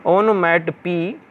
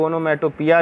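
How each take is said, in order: First: ओनोमैटोपी slowly, ending on "pee"; ओनोमैटोपी measured out, final long "ee"; corrected pronunciation. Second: ओनोमैटोपिया in the common mistaken form ending "-piya"; mispronunciation. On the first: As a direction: say ओनोमैटोपी with no "-ya" at the end. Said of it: "इसका हमने pronounce यहाँ पे लिख दिया". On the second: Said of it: "ऐसा नहीं है". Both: Shown as a demonstration.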